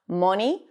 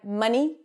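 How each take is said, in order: First: The first vowel sounds like a rounded 'oh'. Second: The first vowel sounds like a central 'uh'. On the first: The speaker calls it wrong. "they tend to turn it into an O" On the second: The speaker calls it right. "the cup sound"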